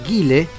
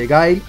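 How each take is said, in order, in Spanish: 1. El nombre se dice con pronunciación española. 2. El nombre se dice con pronunciación inglesa.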